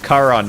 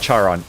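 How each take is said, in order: First: The name begins with a hard K sound. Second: The name begins with a sound other than K. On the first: The speaker calls it right. "You you use the you use a K sound, even though there is an H there" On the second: The speaker calls it wrong.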